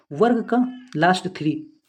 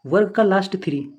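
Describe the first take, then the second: First: वर्ग का last three said slowly, each word set apart; slow mnemonic. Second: Said in the usual way. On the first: Shown as a demonstration. Teacher slowly dictating a memory trick to students. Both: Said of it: "इसकी trick क्या है?".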